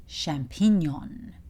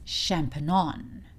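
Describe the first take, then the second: Both takes have the same delivery.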